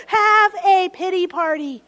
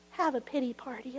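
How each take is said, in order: First: Louder emphatic invitation, falling; emphatic call. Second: Much softer, gentle invitation; soft permission. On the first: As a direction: proclaim it boldly. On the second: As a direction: say it quietly, giving permission. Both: Shown as a demonstration.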